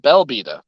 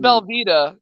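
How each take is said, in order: First: The name begins with a B sound. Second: The name begins with a V sound, like the cheese. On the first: The speaker calls it right. "but Belvita" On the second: The speaker calls it wrong. "Not Velveeta, not Velveeta, like the cheese"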